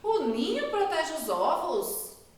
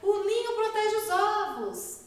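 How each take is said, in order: First: It is said as a question, rising. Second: It is said as an amazed exclamation. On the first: It asks whether this is true. "Também deu uma pergunta" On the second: It expresses amazement. "Estou me admirando"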